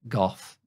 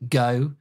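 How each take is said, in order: First: It is pronounced the English way. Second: It is pronounced the North American way. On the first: "if you're English" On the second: "if you're North American"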